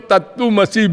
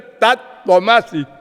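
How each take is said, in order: First: The middle syllable is said as 'tu'. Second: The middle syllable is said as 'tva'. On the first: The speaker calls it wrong. "उसी को तत्तुमसी बोल रही थी" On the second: The speaker calls it right. "वो जो वेद मंत्र एक है ना"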